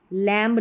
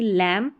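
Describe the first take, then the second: First: लैम्ब with b sounded; wrong pronunciation. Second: लैम ending on m; silent b. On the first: Teacher showing the error, b voiced in लैम्ब. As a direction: release a b at the end of लैम्ब. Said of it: "लैम्ब नहीं". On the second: Teacher giving correct form, लैम with silent b. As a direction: drop the b from लैम. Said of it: "बी silent रहता है". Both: Shown as a demonstration.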